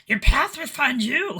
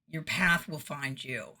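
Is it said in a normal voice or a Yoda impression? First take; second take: Yoda impression; normal voice. First: It is said in a put-on Yoda voice. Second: It is said in the speaker's normal voice.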